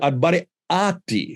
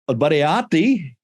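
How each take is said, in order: First: The word is said with a glottal stop. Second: The word is said without a glottal stop. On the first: It means the worst of the innocent. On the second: It means the worst of creatures.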